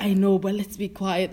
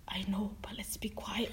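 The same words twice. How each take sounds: First: Said in the usual way. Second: Unvoiced, much softer whisper; hushed warning. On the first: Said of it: "I was like". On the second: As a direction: whisper it discreetly to a new colleague. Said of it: "looked at me like that and said".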